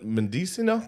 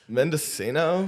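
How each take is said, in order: First: It is said without a California accent. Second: It is said in a California accent. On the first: The speaker calls it wrong. "Oh no, no" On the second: The speaker calls it right. "Yeah, like that"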